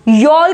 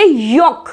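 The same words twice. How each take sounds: First: यॉल said as yol-k; wrong sounded l. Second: यॉक as yok, no l; silent l. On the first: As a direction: misread yolk as यॉल with l voiced. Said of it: "नहीं बोलेंगे". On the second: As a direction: say यॉक straight from vowel to k. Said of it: "यॉल को नहीं बोलेंगे". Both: Shown as a demonstration.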